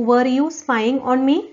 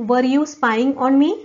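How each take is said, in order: Both takes have the same delivery.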